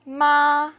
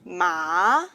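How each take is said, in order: First: The pitch stays high and level. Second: The pitch rises from middle to high. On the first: "is a high level tone" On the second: "is a rising tone"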